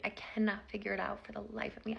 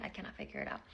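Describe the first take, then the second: First: Said in the usual way. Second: Defeated mutter. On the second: Real, not acted. Repeats her confusion.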